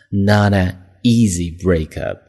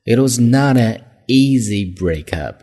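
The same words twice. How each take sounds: First: "Not an easy breakup" read slowly with a fall on "easy"; slow, clear reading. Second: "not" stressed with a falling tune. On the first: Teacher repeating the phrase slowly for the class. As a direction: spell it out slowly for learners. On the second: Teacher reading the example, stressing not. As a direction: hit the word not. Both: Shown as a demonstration.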